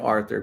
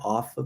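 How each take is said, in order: First: It is said as a plain Arthur. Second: It is said to sound like author.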